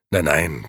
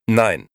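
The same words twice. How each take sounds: First: Light, reassuring "Nein, nein" with a falling close; soothing "Nein, nein" said quickly. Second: Louder, firm "Nein" falling hard; decisive "Nein" said louder. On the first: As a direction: wave the worry away gently. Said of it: "versicherte Gigi". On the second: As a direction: cut the idea off flatly. Gigi refuses the press idea. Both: Acted.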